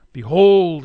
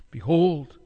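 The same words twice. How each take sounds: First: Second behold pushed louder. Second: Said in the usual way. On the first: Acted. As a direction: call out behold.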